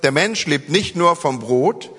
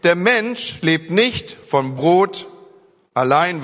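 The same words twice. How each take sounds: First: Slow, "nur" stressed with rising tune; newer wording. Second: Slow, "nicht" stressed with rising tune; Luther's wording. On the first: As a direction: hit "nur" as the key difference. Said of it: "Das heißt hier ein bisschen anders". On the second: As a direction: lean on "nicht", let "vom Brot allein" trail. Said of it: "würde Luther hier sagen". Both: Shown as a demonstration.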